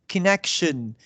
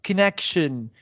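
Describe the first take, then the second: No difference in how they are said.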